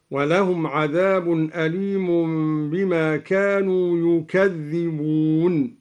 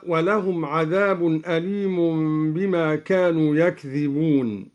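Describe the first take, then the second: First: "يكذبون" said "yukadhdhibūn", u on the ya and a doubled dh; doubled dhal. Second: Said in the usual way. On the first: Shown as a demonstration. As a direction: begin "يكذبون" on "yu", open the k, lean on the double dhal. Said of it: "بضم الياء وفتح الكاف وتشديد". (ضم الياء وفتح الكاف وتشديد الذال في "يكذبون")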